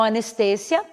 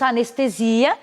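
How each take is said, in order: First: Anestesia stressed on TE, with an s sound; Spanish pronunciation. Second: Anestesia stressed on SI, with a z sound; Portuguese pronunciation. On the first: Teacher giving the Spanish word, stress on TE. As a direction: hit TE in anestesia. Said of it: "em espanhol". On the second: Teacher giving the Portuguese word, stress on the SI. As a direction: stretch ZI at the end of anestesia. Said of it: "em português nós teríamos". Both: Shown as a demonstration.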